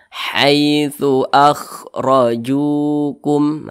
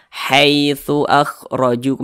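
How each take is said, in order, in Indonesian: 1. Vokal dalam 'hai' tetap berbunyi a. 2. Vokal dalam 'hai' condong ke i. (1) "hai pakai a" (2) "jangan sampai condong ke i. Jangan dibaca"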